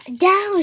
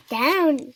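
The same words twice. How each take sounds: First: High, loud command; shouted. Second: Questioning echo, less forceful; asked. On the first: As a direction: call out the dance move. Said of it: "shouted Piggy". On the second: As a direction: echo the command uncertainly. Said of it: "Gerald asked". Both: A narrator's reading.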